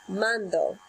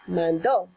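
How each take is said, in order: First: The stress is on the first syllable. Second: The stress is on the last syllable. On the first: I send. "Here is the present tense" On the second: She sent. "Here's the pretérito. So the emphasis is on a different letter"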